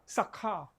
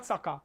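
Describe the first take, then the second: First: "Sakha" with a clear puff of h after the k; "Sakha", k released into a breath; aspirated KH in Sakha. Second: "Sakha" said as "saka", plain k; "Sakha" with the h dropped; unaspirated K in Sakha. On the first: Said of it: "S A K H A". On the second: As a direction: say "Sakha" with no puff after the k. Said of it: "not Sakha". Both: Shown as a demonstration.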